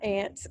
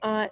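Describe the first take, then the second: First: The word is said in a non-Texan accent. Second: The word is said in a Texan accent. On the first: This is how other regions say it. "not aunt" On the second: This is how the speaker's home region says it. "I say aunt, I'm from Texas. We say aunt"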